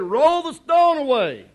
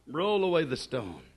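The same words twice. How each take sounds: First: Raised, louder command; Jesus ordering the stone moved, forceful; firm command. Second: Plain low command. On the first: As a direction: call it out so the tomb hears. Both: Shown as a demonstration. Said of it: "To prove to you that that was her attitude".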